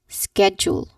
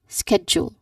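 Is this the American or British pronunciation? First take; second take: American; American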